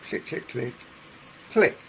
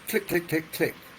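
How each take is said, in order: First: A pause comes before the last click. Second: The clicks are evenly spaced with no gap. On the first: "So they put a pause before the last click" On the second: "So fairly evenly spaced clicks"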